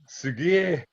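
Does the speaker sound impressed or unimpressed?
unimpressed. It is said in an unimpressed, negative tone. Something is not so good. "Not so good"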